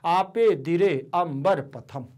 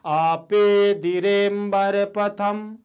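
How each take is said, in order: First: The 'a' of 'ambara' is fully sounded separately. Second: The 'a' is merged, only faintly hinted at. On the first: The speaker calls it wrong. "हम ऐसे नहीं पढ़ सकते" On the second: The speaker calls it right. "ऐसे पढ़ना पड़ेगा"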